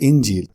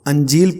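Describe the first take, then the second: First: The word starts with an 'i' vowel. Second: The word starts with an 'a' vowel. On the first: The speaker calls it right. "हालांकि पढ़ना चाहिए इंजील" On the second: The speaker calls it wrong. "हमारे अक्सर लोग इसको अंजील पढ़ते हैं"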